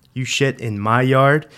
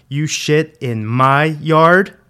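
First: Raised, loud question rising at the end; angry accusation. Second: Very loud, slow, high, rising question; furious accusation. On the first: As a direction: challenge the kid with an incredulous question. Dad grabs kid, repeats accusation louder. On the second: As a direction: drag out each word in escalating rage. Dad repeats it, escalating. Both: A narrator's reading.

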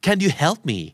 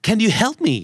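First: Help as the main verb, stressed. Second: You hit higher and louder; stress on you. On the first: Teacher corrects, stressing help as main verb. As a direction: lean on help. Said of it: "Help เป็นกริยาหลักของประโยคนี้". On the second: Teacher leads class, you stressed. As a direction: punch the word you. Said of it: "ทำตัวหนาให้กับคำและพยางค์ที่ควรจะถูกเน้น". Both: Shown as a demonstration.

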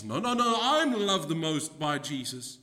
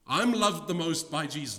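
First: Outbidding disciple. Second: Higher, louder boastful claim; squabbling disciple. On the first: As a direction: cut in and outdo the rival. Second disciple outbidding the first. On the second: Preacher voicing a disciple boasting to the others, mock squabble. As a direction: brag like a child who wants first place. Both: Acted.

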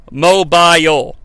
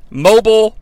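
First: Mobile said the English way, ending "bile" like "mile". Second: Mobile said the American way, ending like "bull". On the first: Host showing off the English way, saying mobile slowly. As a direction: mobile drawn out slowly as "MO-bile" with a long falling "bile". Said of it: "that extra syllable and an English accent". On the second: Host contrasting American and English ways, saying Mobile the American way. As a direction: Mobile as "MO-bull", two short syllables. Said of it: "I'm talking about syllables". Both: Shown as a demonstration.

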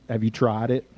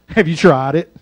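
First: Dropped low and soft, almost to yourself; soft question. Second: "Have" pushed louder with a rising end; pointed question. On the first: Preacher softly asking the congregation about sleep. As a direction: ask it quietly, gently probing. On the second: Preacher pressing the congregation about sleep. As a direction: press the listener, "Have you tried it?" with a lift. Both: Shown as a demonstration. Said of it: "but have you".

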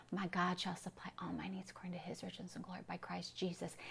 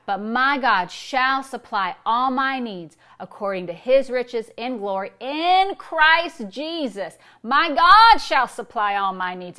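First: Hushed, whispered scripture recital; very soft bedtime whisper of a memorized verse; whispered to oneself. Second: Yelled declaration. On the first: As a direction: whisper it so nobody wakes. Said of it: "You don't wanna wake up your spouse". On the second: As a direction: belt the verse out, stretching IN and GOD. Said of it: "You're not yelling it". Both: Shown as a demonstration.

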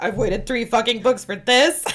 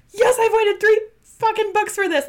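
First: Loud disbelief, rising on THIS; indignant question with THIS punched upward; incredulous letdown. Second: Loud, high-pitched excited yell; shouted triumphant excitement; thrilled cheer. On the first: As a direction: demand it in disbelief, louder than usual. Acts out second, let-down reaction. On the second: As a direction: burst out elated, way up in pitch. Acts out first thrilled reaction. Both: Retold or imitated.

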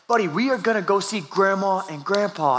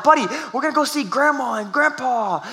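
First: Said in the usual way. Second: Put-on higher, pleading over a screaming kid; strained pleading. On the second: Dad pleading with his screaming son in the car, higher and strained. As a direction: try to calm him, voice pitched up and strained.

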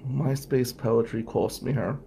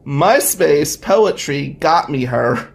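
First: "MySpace poetry cost me her" much softer, letting it drop; deflated punchline. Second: "MySpace poetry got me her" said louder and slow, savouring it; wistful punchline. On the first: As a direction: let "cost me her" sink quietly. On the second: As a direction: lean in slowly on "got me her". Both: Shown as a demonstration.

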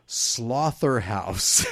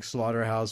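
First: Slaughterhouse said slowly with a "th" in place of the "t"; drawn-out mock-serious title. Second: Said in the usual way. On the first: Real, not acted. Host announcing the next film's silly title, slow and mock-serious, Slaughterhouse as "sloth-er-house". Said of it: "I can't say that name seriously". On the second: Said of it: "supposed to be like Slaughterhouse".

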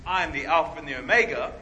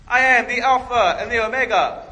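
First: Solemn declaration. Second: Loud, high, pompous proclamation; mock grand boast. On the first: Pretend. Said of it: "When Jesus gets up and says". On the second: A preacher mockingly declaring himself, a loud pompous boast. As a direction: boom it out like a show-off. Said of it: "if I got up in church and I was like".

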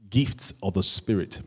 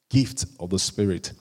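The two takes are said the same way.

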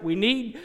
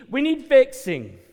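First: Said in the usual way. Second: Need hit high and loud, falling; pleading cry. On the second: Real, not acted. Preacher pleading to the congregation, loud cry. Repeats plea, building.

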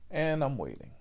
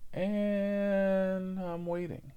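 First: Said in the usual way. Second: Slow, higher, stretched out; drawn out waiting. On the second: Shown as a demonstration. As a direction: drag out the wait impatiently. Repeated waiting, escalating.

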